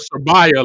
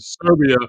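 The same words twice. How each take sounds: First: It is said in a mock Alabama accent. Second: It is said in the speaker's ordinary accent.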